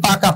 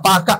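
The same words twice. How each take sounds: No difference in how they are said.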